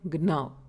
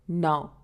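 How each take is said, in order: First: The G is sounded at the start. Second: The G is silent at the start. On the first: The speaker calls it wrong. "instead of gnaw" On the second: The speaker calls it right. "we say it as now"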